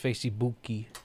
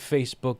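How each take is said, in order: First: An extra ee vowel is added after the k. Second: The word ends plainly on the k sound. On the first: "it's Facebooky" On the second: "instead of Facebook"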